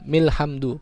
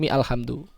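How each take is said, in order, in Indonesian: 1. Mi langsung menyambung ke lhamdu, huruf a-nya hilang. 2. Huruf a pada alhamdu diucapkan setelah mi. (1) "milhamdu, bukan mi alhamdu" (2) "bukan mi alhamdu"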